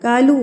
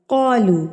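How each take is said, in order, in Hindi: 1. पहला व्यंजन हल्का और पतला है। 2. होंठ गोल करके पहला व्यंजन भारी बोला जाता है। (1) "कालू गलत है" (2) "कौलू ठीक है"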